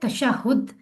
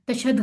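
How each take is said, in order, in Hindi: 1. अंतिम अक्षर में 'u' स्वर है। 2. अंतिम अक्षर में 'a' स्वर है। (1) "तशहुद सही है" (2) "तशहद गलत लफ्ज़ है"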